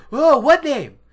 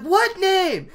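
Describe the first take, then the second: First: Loud, high exclaimed question; hammed-up alarmed question; urgent demand. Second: Very high, loud yelped question; hammed-up high-pitched insistence; insistent demand. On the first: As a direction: blurt it out impatiently. [name] anxiously demanding the name. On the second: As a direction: squawk it in exasperation. [name] demanding again, more insistently.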